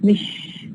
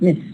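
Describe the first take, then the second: First: The word ends with a sh sound. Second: The word ends with an s sound. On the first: "We have the change from sa to sha" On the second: "instead of miss"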